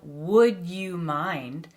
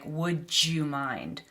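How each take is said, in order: First: The d and y sounds stay separate. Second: The d and y blend into j.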